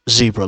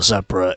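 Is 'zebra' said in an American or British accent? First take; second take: American; British. First: It is said in a non-British, American-style accent. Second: It is said in a British English accent.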